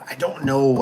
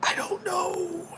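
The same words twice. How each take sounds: First: Said in the usual way. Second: Very high, drawn-out, soft singsong; playful uncertainty. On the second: Pretend. Answering question on brand openers, high singsong cluelessness. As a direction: squeak it out slowly and softly.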